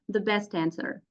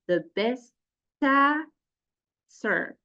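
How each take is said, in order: First: The phrase is spoken at normal conversational speed. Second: The phrase is spoken slowly and deliberately. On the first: "and then get back to normal" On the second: "I have to do it slowly"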